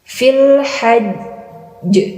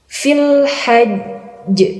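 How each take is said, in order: No difference in how they are said.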